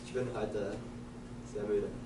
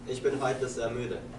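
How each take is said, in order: First: It is said at a quieter volume. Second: It is said at a louder volume.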